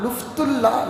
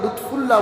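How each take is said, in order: First: The f sound comes before the t. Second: The f sound comes after the t. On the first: The speaker calls it wrong. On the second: The speaker calls it right.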